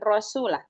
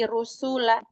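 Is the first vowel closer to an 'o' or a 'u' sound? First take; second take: o; u. First: The first vowel sounds like 'o'. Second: The first vowel sounds like 'u'. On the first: The speaker calls it wrong. "bukan rosula" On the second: The speaker calls it right. "tapi rusula"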